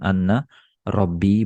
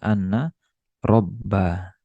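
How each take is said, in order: First: The second word ends in an i vowel. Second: The second word ends in an a vowel. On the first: The speaker calls it wrong. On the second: The speaker calls it right. "dibaca anna robba"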